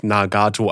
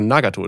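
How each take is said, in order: First: Nagato, jede Silbe gleich betont; überall betont. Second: Nagato mit Ton auf NA; Betonung vorne. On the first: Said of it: "und nicht Nagato, alles so aufgeteilt". (Nagato, gleichmäßig auf allen Silben betont) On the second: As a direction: erste Silbe Nagato betonen. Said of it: "die Betonung dann vorne". (Nagato, betont auf der ersten Silbe) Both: Shown as a demonstration.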